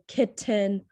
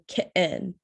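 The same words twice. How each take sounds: First: The middle t is a clearly released t. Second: The middle t is a glottal stop. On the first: The speaker calls it wrong. "You don't say kitten" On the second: The speaker calls it right. "You say kitten, button. That's the glottal stop sound"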